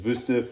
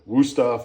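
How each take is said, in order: First: The name is said with a German pronunciation. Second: The name is said with an American pronunciation. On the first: This is how the name is properly said. "the proper pronunciation is" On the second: This is how people in America say it. "as we say in America"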